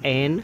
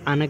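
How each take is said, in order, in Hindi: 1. स्वर पूरा और साफ़ है, जैसे 'an'। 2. स्वर छोटा और कमज़ोर है, जैसे 'un'। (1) "स्ट्रॉन्ग फॉर्म में एन" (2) "वीक फॉर्म में अन कहते हैं"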